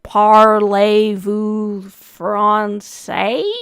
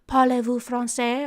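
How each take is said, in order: First: It is said in a heavy Southern American accent. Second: It is said with a French-like accent. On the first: The speaker calls it wrong. "a really heavy southern accent, and I imagine it's kind of the same vibe" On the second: The speaker calls it right. "it's supposed to be like"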